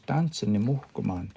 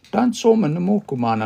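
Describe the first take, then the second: First: Said in the usual way. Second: Tansoma said higher and louder, pressed; stress on Tansoma. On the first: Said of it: "It's just a plain sentence". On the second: Shown as a demonstration. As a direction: lean hard on Tansoma. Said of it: "I'm now putting emphasis on there".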